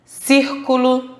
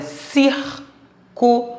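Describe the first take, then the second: First: Slow, careful whole-word reading of Círculo; read aloud. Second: Círculo broken into CÍR, CU, LO with pauses; syllable by syllable. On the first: Teacher reading a word list aloud to pupils, slow read-aloud. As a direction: say Círculo as one word, stretched and clear. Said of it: "Leia as palavras a seguir em voz alta". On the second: Teacher using the first word as example, syllable by syllable. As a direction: say círculo very slowly, a gap after each syllable. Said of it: "Vamos usar como exemplo a primeira palavra". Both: Shown as a demonstration.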